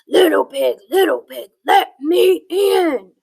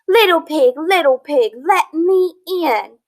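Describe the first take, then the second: First: It is said in an angry voice. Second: It is read in a plain, calm tone.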